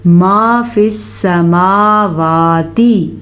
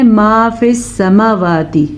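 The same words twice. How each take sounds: First: ما فی السماواتی drawn out very slowly, both long vowels held full; slow careful Quranic chanting of ما فی السماواتی with every long vowel kept; correct recitation. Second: ما فی السماواتی said quicker with the long vowels clipped short; rushed ما فی السماواتی that skips the held long vowels; wrong recitation. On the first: Teacher showing students the right way to recite ما فی السماواتی. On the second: Teacher demonstrating the common mistake in ما فی السماواتی. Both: Shown as a demonstration. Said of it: "ایسے آپ نے نہیں پڑھنا".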